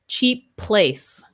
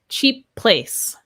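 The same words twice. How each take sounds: First: The two P sounds blend into one. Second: The two P sounds blend into one.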